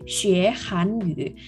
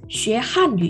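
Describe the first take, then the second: First: The syllable han is said with a rising pitch. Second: The syllable han is said with a sharp falling pitch. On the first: It means learning Korean. "Kalau belajar Korea, hanyu itu nada dua" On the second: It means learning Chinese. "ini harus ditekan. Jadi artinya adalah bahasa Mandarin"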